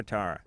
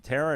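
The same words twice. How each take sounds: First: Tara with AH in the first syllable; open-vowel variant. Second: Tara with AIR in the first syllable; first-vowel variant. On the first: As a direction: say Tara like TAR-uh. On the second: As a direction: say Tara to rhyme with Sarah. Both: Shown as a demonstration. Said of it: "Is it Tara or Tara?".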